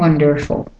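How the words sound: It is said in an American accent.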